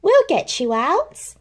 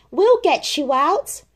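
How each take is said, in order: First: Reassuring. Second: Calling out. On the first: Christopher Robin comforts Pooh. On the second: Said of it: "called from the ground". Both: Acted.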